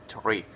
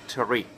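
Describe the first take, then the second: No difference in how they are said.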